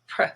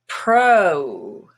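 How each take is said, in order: First: The vowel is reduced almost to nothing. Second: The vowel is a full, long vowel. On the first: "pro becomes pr" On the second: "is rose"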